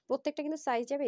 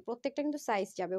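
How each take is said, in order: First: প্রত্যেকটা stressed, the whole line pitched higher; emphatic repeat. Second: Said in the usual way. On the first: Shown as a demonstration. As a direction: lean hard on প্রত্যেকটা when repeating. (প্রত্যেকটা শব্দে জোর দিয়ে উঁচু গলায় আবার বলা) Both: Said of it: "okay?".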